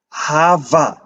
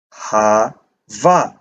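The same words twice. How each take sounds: First: Said in the usual way. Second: "Hava" split, with the v leaned on; emphasized Vav. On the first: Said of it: "in one word, Vav is without". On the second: Shown as a demonstration. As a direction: say "Hava" slowly, pausing before a weighted v. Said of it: "emphasize Vav more".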